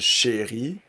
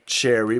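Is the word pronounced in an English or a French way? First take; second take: French; English. First: It is said with a French pronunciation. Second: It is said like the English word cherry. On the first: "if you just say it in French as chérie" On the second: "here Chérie, like cher cherry"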